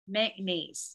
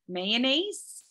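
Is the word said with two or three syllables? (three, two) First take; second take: two; three. First: The word is said with two syllables. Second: The word is said with three syllables. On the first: "So is that two syllables?" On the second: "I have a three-syllable pronunciation for that"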